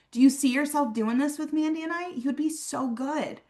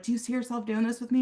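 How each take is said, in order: First: Upbeat confident ask. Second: Hurried, fast first-time ask; rushed nervous ask. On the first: Recruiter asking a guest to join, confident and high. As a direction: ask it like you know they'll love it. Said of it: "walk up to Mandy and her cousin and be like". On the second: Nervous rep trying the ask for the first time, rushed. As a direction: blurt it out before you lose nerve. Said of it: "if this is the first time". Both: Shown as a demonstration.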